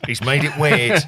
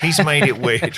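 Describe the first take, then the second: First: A louder mock cry of a mate who finds it awkward; mock horrified mate. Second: Laughing mock mate. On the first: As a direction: ham up the mate's horror, loudly. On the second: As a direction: repeat it louder, laughing through the words. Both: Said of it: "they're gonna go".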